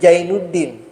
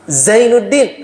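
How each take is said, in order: First: The name starts with a j sound. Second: The name starts with a z sound.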